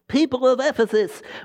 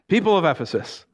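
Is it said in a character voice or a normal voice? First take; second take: character; normal. First: It is said in a put-on city clerk voice. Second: It is said in the speaker's own normal voice.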